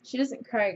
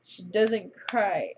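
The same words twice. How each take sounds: First: Said in the usual way. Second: "doesn't" leaned on, slow and deliberate; slow emphatic. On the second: Real, not acted. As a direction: spell out "She doesn't cry" word by word.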